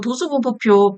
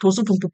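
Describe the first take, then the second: First: The term is pronounced clearly, every syllable distinct. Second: The term is said fast, with syllables slurred together. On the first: The speaker calls it right. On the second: The speaker calls it wrong.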